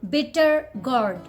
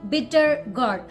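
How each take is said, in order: First: The R sounds are pronounced. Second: The same.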